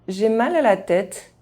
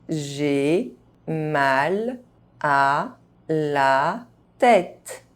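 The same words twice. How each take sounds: First: The phrase is spoken fast, sounds reduced. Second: The phrase is spoken very slowly. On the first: This is how native speakers say it. "fast, as a native speaker would do" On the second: Each syllable can be heard clearly. "very slowly"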